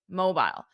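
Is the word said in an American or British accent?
British. It is said with a British accent. "the other one is British"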